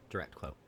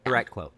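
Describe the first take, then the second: First: Muttered repeat, much softer; quiet. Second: Said in the usual way. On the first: Real, not acted. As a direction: drop to a low aside. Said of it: "repeated quieter".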